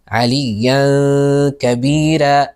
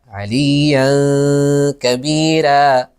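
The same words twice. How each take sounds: No difference in how they are said.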